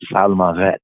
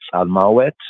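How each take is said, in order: First: The middle consonant is a v sound. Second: The middle consonant is a w sound. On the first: Other Hebrew speakers pronounce it this way. "other Yehudi and other Hebrew speakers might enunciate it as" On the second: This follows one tradition of Hebrew pronunciation. "in the Afro-Shemitic pointing of the Hebrew"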